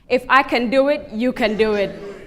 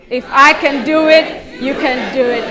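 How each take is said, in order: First: It is said at a normal, softer volume. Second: It is said louder, with more force.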